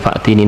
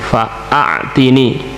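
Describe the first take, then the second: First: It is said as three syllables, no long vowel. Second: It is said as four syllables with a long vowel. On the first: It means bring me, from the verb for coming. The speaker calls it wrong. "bukan fa'tini" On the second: It means give me, from the verb for giving. The speaker calls it right. "diberi tambahan hamzah qata"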